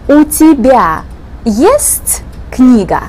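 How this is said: It is said with question intonation. The speaker asks whether the listener has a book. "you show it with your intonation"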